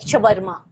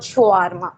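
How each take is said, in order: First: The middle vowel is short. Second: The middle vowel is long. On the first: The speaker calls it right. "Like शवरमा" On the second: The speaker calls it wrong. "Not शवारमा"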